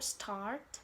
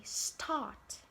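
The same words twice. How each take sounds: First: American-style start, R kept. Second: British-style start, no R before the T; British pronunciation. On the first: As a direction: start with the R pronounced. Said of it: "they treat the R sound very differently". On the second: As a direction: start with the R dropped. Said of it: "British say start". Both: Shown as a demonstration.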